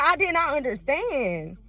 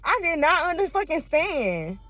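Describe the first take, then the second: First: I did not understand said slowly, every word pressed; slow, deliberate I did not understand; slow emphatic denial. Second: Under fucking stand split with the curse punched in the middle; infixed emphasis. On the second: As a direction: break the word open and punch fucking inside. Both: Shown as a demonstration.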